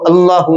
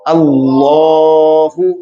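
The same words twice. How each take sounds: First: The vowel after the L is short. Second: The vowel after the L is drawn out long. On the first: The speaker calls it wrong. "इसको अल्लाहु नहीं पढ़ेंगे" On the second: The speaker calls it right. "हर्फ़े लाम को लंबा करके पढ़ा"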